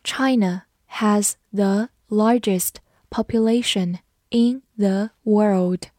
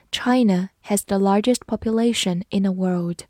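First: China has the largest population read slowly, word by word. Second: Said in the usual way. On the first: Shown as a demonstration. Teacher reading slowly so students repeat after her. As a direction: read it slowly for learners to follow. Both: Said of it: "跟着我慢读一遍".

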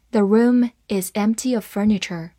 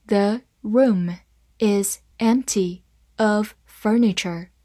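First: Said in the usual way. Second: "The room is empty of furniture", slow, word by word; slow read-along. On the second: Shown as a demonstration. Teacher reading the furniture example for learners, slow and separated. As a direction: set each word apart for learners. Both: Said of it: "好，慢慢来读".

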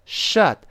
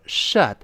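First: "shut" mispronounced like "shot", with an open ah; wrong open vowel. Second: "shut" with a short central uh, as in "cut"; short uh vowel. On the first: Teacher warning learners with the mistake, open-vowel "shot". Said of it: "不要读shut". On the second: Teacher modelling the correct word, short uh vowel. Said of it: "还是倒V字的这个呃". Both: Shown as a demonstration.

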